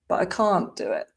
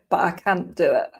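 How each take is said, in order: First: It is said in a southern English accent. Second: It is said in a northern English accent. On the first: "in the south of England" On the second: "So in the north of England"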